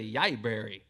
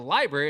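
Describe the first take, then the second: First: The word begins with a Y sound. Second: The word begins with an L sound. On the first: "her L sound ... is a Y sound" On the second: "It's not the library"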